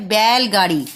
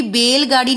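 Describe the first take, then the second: First: बैलगाड़ी said with an open ai sound, as bailgaadi; बैलगाड़ी with a clear open ai in the first syllable; the right way, बैलगाड़ी with ai; correct ai vowel. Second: बैलगाड़ी said with a short e sound, as belgaadi; बैलगाड़ी with a clipped e vowel instead of ai; the wrong way, बैलगाड़ी with e. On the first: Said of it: "क्योंकि बैलगाड़ी नहीं होता". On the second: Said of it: "शब्द होता है बैलगाड़ी". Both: Shown as a demonstration.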